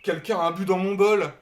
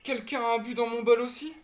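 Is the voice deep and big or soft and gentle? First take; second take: deep; soft. First: It is said in a big, deep voice. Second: It is said in a soft, gentle voice.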